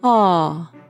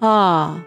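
First: The voice resonates in the oropharynx. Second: The voice resonates in the mouth.

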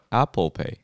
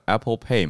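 First: The stress is on the first syllable. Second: The stress is on the last syllable.

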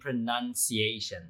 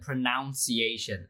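First: The second syllable sounds like 'nun'. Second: The second syllable sounds like 'noun'. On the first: The speaker calls it right. "大家其实是念pronunciation" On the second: The speaker calls it wrong. "很多名词就会念成pronunciation"

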